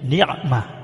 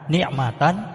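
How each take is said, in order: First: The word ends with a stopped h sound. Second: The word ends with a short -tan sound. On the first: The reading stops at this word. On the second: The reading continues without stopping.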